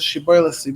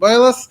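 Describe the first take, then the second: First: The word begins with a sh sound. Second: The word begins with an s sound. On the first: The speaker calls it right. "they can't pronounce the sh sound" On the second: The speaker calls it wrong. "They say s"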